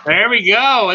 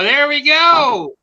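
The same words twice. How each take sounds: First: Said in the usual way. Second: Higher and slow; drawn-out high. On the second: Shown as a demonstration. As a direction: stretch it out up high.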